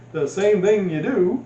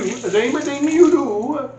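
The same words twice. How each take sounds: First: Said in the usual way. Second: High, slow sing-song Swedish accent. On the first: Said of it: "I don't know why I went Swedish there". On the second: Shown as a demonstration. Cooking vlogger slipping into a Swedish accent while explaining. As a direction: lilt it like a Swedish chef. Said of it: "I went Swedish there".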